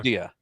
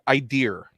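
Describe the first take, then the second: First: The word ends with a plain vowel. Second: The word ends with an added R sound. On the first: This is the usual pronunciation. "for idea" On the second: This imitates a friend's habit. "sticks an R onto certain words, he says like the word idea"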